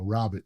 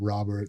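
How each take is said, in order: First: The name is said in a Queens accent. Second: The name is said in a plain accent. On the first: "Queen's accent" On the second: "not Robert"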